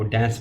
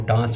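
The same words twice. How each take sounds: First: It is said in an American accent. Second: It is said in a British accent.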